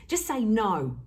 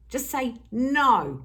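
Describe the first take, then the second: First: Said in the usual way. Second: Slow and firm, punching no. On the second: Shown as a demonstration. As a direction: say no like you mean it, slowly. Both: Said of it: "get used to saying no".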